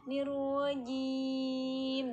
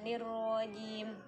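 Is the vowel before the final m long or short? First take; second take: long; short. First: The vowel before the final m is drawn out long. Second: The vowel before the final m is kept short. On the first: The speaker calls it right. "mad arid li sukunnya dipanjangin" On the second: The speaker calls it wrong.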